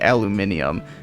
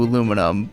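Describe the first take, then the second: First: Five syllables, with an extra -i- before -um. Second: Four syllables, ending in a plain -num sound. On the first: "British people in particular say aluminium" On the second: "the spelling corresponds to aluminum"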